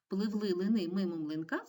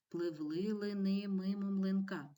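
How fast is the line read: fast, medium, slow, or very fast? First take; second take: fast; medium. First: It is read quickly in a full voice. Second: It is read faster in a half voice. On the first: "А тепер швидко" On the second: "Читаємо швидше упівголоса"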